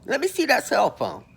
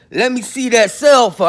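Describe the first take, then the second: First: Said in the usual way. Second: Louder, pressing demand to the cellmate; confronting demand. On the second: Shown as a demonstration. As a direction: lean in hard and insist on the phone. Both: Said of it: "I got up on him just like that".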